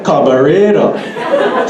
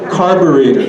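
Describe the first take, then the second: First: It is said in a Hawaiian Pidgin accent. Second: It is said in a Standard English accent.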